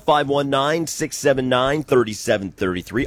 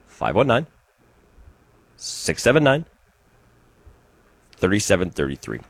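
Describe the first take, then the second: First: The number is said at a quicker pace. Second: The number is said at a slower pace.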